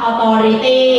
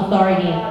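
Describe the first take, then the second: First: Spoken in a Thai-style English accent. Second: Spoken in a relaxed American accent, soft T. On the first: "แบบคนไทยก็จะพูดแล้วนะ" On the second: "ถ้าเป็นคนอเมริกันก็แบบชิวๆ"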